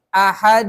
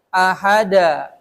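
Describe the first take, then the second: First: The final consonant bounces into a short schwa. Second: The final consonant bounces into a clear 'a' vowel. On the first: The speaker calls it right. "lebih larinya kepada e" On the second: The speaker calls it wrong. "Ada yang begitu bacanya. Nggak boleh"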